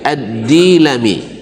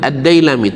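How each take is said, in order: First: The first syllable has a plain 'i' vowel. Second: The first syllable has the diphthong 'ai'. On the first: The speaker calls it right. "tapi Ad-Dilami" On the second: The speaker calls it wrong. "Yang benar bacanya bukan Ad-Dailami"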